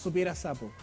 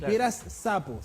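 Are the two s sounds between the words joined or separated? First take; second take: joined; separated. First: The two s sounds merge into one. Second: The two s sounds are kept apart. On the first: The speaker calls it wrong. "por decir dos eses juntas" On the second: The speaker calls it right.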